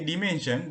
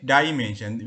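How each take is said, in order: First: Dimension with a short i, dih-mension; Sri Lankan pronunciation. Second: Dimension with a long eye sound, dye-mension; American pronunciation. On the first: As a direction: dimension starting with a plain short i sound. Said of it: "So we say dimension". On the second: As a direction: dimension opening on the diphthong ai. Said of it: "they say dimension". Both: Shown as a demonstration.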